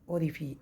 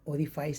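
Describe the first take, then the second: First: The last syllable sounds like 'fee', without 'ice'. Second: The last syllable sounds like 'fice', rhyming with ice. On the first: The speaker calls it right. "सही pronunciation है" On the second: The speaker calls it wrong. "ओरिफाइस नहीं पढ़ते हैं"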